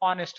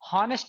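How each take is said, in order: First: The word starts directly with a vowel sound. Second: The word starts with an h sound. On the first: The speaker calls it right. "तो इसका उच्चारण क्या होता है, ऑनेस्ट होता है" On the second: The speaker calls it wrong. "हॉनेस्ट नहीं होता दोस्तों"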